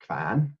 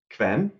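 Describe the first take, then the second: First: "Kvan" with an open a vowel, kvahn; northern dialect "Kvan" with a rising end; Northern Norwegian Kvan. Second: "Kven" said with a clear e vowel, kvehn; plain Norwegian "Kven", not the dialect form; standard Norwegian Kven. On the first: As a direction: dialect "Kvan", e opened to a as in "can". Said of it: "in Northern Norwegian dialect". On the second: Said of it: "that K V E N is pronounced Kvan". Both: Shown as a demonstration.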